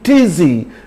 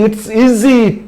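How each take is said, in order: First: The words are merged into one word. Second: The two words are said separately.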